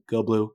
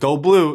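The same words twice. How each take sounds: First: It is said weakly and without confidence. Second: It is said boldly and with confidence. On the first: The speaker calls it wrong. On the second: The speaker calls it right.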